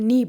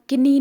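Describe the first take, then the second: First: No K sound is pronounced before the N. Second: A K sound is pronounced before the N. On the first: The speaker calls it right. "हम नी बोलते हैं" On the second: The speaker calls it wrong. "हम किनी नहीं बोलते"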